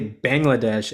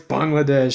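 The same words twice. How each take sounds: First: It is said with an Americanized pronunciation. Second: It is said with the native, non-American pronunciation. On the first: The speaker calls it wrong. "there's so many people that say Bangladesh" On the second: The speaker calls it right. "no, it's Bangladesh"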